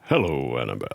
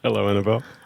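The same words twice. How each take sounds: First: It is said in a low, sexy voice. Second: It is said in a plain, ordinary voice.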